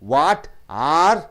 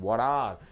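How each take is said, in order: First: The two words are said apart, each separately. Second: The two words run together as one sound. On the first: The speaker calls it wrong. "ஆருக்கு தனியாக கொடுக்காதீங்க" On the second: The speaker calls it right. "Mix பண்ணி ஒரு கலவையாக ஒரு சவுண்டாக"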